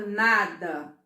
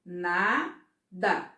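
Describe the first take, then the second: First: Said in the usual way. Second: "Nada" split into na, pause, da; syllable by syllable. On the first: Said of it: "Quando eu falo nada". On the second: Shown as a demonstration. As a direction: say "Nada" in two separate beats. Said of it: "E aí eu vou separar".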